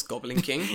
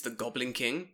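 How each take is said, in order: First: GOBLIN KING drawn out slowly, rising at the end; scare quotes. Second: Said in the usual way. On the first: Shown as a demonstration. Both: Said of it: "quotes Goblin King".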